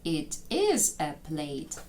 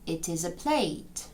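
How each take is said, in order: First: Each word is said separately with breaks between. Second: The words run together into one smooth chunk. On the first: The speaker calls it wrong. "Тож нам треба сказати не It is a plate" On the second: The speaker calls it right. "Вони їх з'єднують між собою"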